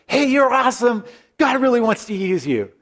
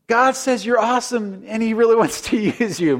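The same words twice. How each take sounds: First: High, bold nervous blurt. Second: High, hesitant second try with a nervous laugh; less confident. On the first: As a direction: blurt it all out at once, pitched up. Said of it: "he just kind of blurts it out". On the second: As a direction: say it again, losing nerve halfway. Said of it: "Maybe less confident the second time". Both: Retold or imitated.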